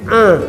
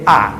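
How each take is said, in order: First: The vowel sound comes out through the nose. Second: The vowel sound comes out through the mouth. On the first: "el sonido sale por la nariz" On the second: "el sonido sale por la boca nada más"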